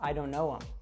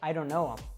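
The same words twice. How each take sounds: First: The 'th' sound is dropped, leaving 'um'. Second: The 'th' sound is dropped, leaving 'um'.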